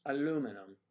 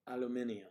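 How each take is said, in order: First: "Aluminum" as a-LOO-mi-num; four-syllable American "Aluminum"; American pronunciation. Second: "Aluminium" as al-yoo-MIN-ee-um; five-syllable British "Aluminium"; British pronunciation. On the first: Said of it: "it is aluminum". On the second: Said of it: "not alu-, al-, aluminium". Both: Shown as a demonstration.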